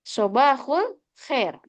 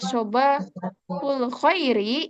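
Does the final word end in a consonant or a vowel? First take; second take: consonant; vowel. First: The last word ends on a bare consonant. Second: The last word ends with an added vowel sound. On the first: The speaker calls it right. "Cara bacanya sobahul khair" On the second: The speaker calls it wrong. "itu kurang fasih"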